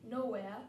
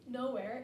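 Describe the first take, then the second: First: The r sound after the vowel is dropped. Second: The r sound after the vowel is pronounced.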